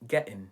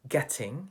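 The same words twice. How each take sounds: First: The word ends with an n sound. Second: The word ends with an ng sound.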